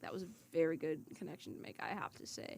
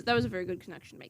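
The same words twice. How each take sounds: First: Trailing off into a yawn; soft, fading, yawning delivery; yawning sigh. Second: Talking through a yawn; words stretched by a yawn. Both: Real, not acted. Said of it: "Sorry, I'm yawning now".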